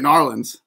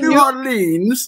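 First: The syllables are run together into a short form. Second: Each syllable is pronounced carefully and separately. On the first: It is how the speaker normally says it. "I say Narlands" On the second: It imitates how a British person says it. "Eddie Hearn says New Orleans, like you're in English class"

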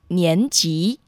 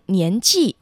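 First: The second syllable is in the rising tone. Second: The second syllable is not in the rising tone. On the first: The speaker calls it right. "正确的读音是第二声年级" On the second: The speaker calls it wrong. "常被误读成年纪"

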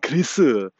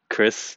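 First: It is said with added vowels, as three syllables. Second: It is said plainly as one syllable.

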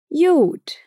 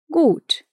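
First: The word begins with a y sound. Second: The word begins with a g sound. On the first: "No Berlinerisch" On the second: "No Hochdeutsch"

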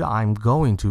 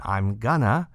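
First: Going to is said fully, each word separate. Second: Going to is squeezed into one reduced word. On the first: "它就不是I'm going to" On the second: "变成I'm gonna"

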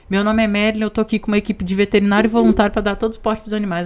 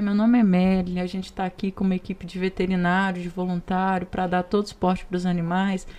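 First: It is said very fast. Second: It is said slowly and calmly.

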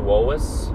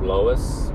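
First: The name starts with a W sound. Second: The name starts with an L sound. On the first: The speaker calls it wrong. "I'd say Wois instead of Lois" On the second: The speaker calls it right. "instead of Lois"

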